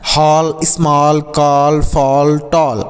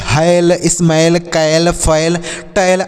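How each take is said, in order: First: हॉल, स्मॉल, कॉल, फॉल, टॉल with rounded "aw", drawn out; correct "aw" pronunciation. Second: हैल, स्मैल, कैल, फैल, टैल misread with an "ai" vowel; wrong pronunciation demo. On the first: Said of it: "ऐसे पढ़ सकते हैं". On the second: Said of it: "गलत pronunciation आप निकाल देंगे". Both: Shown as a demonstration.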